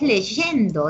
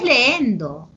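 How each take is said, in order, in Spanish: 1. Un sonido de y claro separa las vocales. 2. Las vocales se unen sin sonido de y. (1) "es leyendo" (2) "No es leendo"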